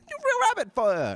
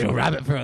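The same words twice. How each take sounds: First: It is said in a New York accent. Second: It is said without a New York accent. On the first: The speaker calls it right. "in a real New York New York accent" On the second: The speaker calls it wrong. "They don't say it like that in New York"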